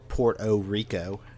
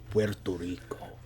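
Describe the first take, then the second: First: The name is said in an imitated older way. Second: The name is said in the speaker's usual way.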